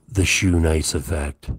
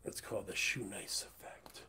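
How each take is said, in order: First: Loud proud proclamation; booming announcement. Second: Whispered aside. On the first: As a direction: boom it like a title card. Announcing his own catchphrase loudly. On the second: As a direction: whisper it like a secret. Repeats catchphrase whispered. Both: Acted.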